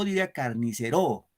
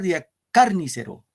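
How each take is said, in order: First: The stress falls on the syllable ro. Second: The stress falls on the syllable car. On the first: "Si fuera en ro" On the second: "Si fuera en car"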